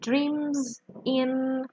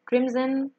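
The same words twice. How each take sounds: First: The two words are said separately. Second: The two words are linked together. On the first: "you can see maybe dreams in becomes" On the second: "becomes dreams in"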